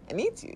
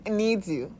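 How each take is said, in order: First: Pleading rise. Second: Said in the usual way. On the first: Shown as a demonstration. Urging listeners to care for the baby-body, high and pleading. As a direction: lift "It needs you." high and tender like begging. Repeated line, pitched up.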